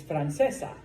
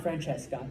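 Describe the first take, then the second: First: "Francesa" with only an s before the final a; the corrected "Francesa", no k sound in the last syllable; correct form, no k. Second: "Francesca" with a k sound before the final a; the mistaken "Francesca", hard c in the last syllable; wrong form, with k. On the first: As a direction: say "Francesa", ending in a plain "-sa". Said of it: "it's Francesa". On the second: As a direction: say "Francesca", ending in "-ca". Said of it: "no, it's not Francesca". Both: Shown as a demonstration.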